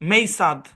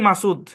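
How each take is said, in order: First: The first syllable has an 'ay' vowel. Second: The first syllable has a plain 'a' vowel. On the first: English spelling rules are forced onto the name. The speaker calls it wrong. "American যদি এসে জোর করে এটার pronunciation rule খাটায়" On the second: This is how the owner says the name. The speaker calls it right. "আমার নামকে আমি পড়ি মাসুদ"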